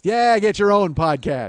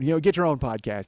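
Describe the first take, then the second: First: "Yeah, get your own podcast." louder and slow; mock scolding. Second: Said in the usual way. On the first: Shown as a demonstration. Host teasing the guest, louder and slower. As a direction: bark it back as a playful rebuke.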